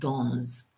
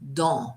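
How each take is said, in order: First: The final S is pronounced. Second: The final S is not pronounced. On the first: The speaker calls it wrong. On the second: The speaker calls it right. "don't pronounce the S at the end"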